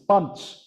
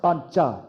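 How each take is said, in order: First: The word ends without the final vowel sound. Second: The word ends with a final vowel sound. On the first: This is how it is said in the North. "You don't pronounce the last part of the phoneme" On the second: This is how it is said in the South. "People in South India are like, you do pronounce it"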